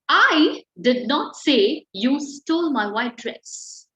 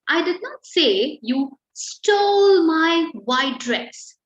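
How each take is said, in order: First: The stress is on the word I. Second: The stress is on the word stole.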